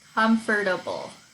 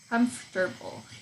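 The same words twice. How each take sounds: First: Every syllable of the word is pronounced separately. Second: The middle syllables are dropped and run together.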